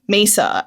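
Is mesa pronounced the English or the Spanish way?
English. It is pronounced with English sounds. "instead of mesa"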